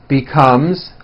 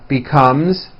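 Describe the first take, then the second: Both takes have the same delivery.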